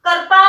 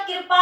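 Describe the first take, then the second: First: कृपा said as kirpa with a full vowel before the r, louder; wrong form said aloud. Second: कृपा with the vocalic ri, kṛpa; correct pronunciation. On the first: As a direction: sound out the misspelt कृपा as pupils write it. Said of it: "कृपा नहीं होता". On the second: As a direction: model the correct कृपा calmly. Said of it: "कृपा होता है". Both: Shown as a demonstration.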